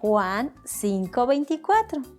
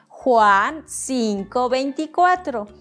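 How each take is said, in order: First: It is said at a normal volume. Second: It is said louder, without shouting.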